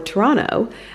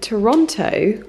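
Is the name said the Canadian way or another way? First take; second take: Canadian; another way. First: It is said the way Canadians say it. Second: It is said in a non-Canadian way.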